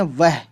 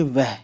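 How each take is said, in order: First: वह with the h sounded, Hindi style; Hindi pronunciation. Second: वह said like वो, the h swallowed; Urdu pronunciation. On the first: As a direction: say वह the Hindi way, h audible. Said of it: "Hindi में बोलते हैं वह". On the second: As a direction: say वह the Urdu way, h silent. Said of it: "Urdu में हमेशा वो कहते हैं ना कि". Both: Shown as a demonstration.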